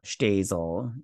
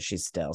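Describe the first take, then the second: First: "Shtazel" with an opening sht and a long ay; alternative pronunciation. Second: "She's Still" with short i in the final STILL; own pronunciation. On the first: Host checking how viewers say the title, "Shtazel" said SHTAY-zul. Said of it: "is that what you guys say". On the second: Host giving their own way of saying the title, "She's Still" as shi-STILL. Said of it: "we pronounce it She's Still". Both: Shown as a demonstration.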